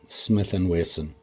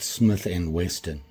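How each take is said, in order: First: The last name has no t sound. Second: The last name has a t sound. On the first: The speaker calls it right. "It's a double S, Wesson" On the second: The speaker calls it wrong. "It's not Smith and Weston. They put the T in"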